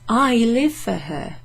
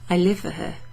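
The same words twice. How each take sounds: First: The word I carries strong stress. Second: No word is singled out for stress. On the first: It is the speaker himself, as opposed to others, who lives for her. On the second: The speaker simply lives for her.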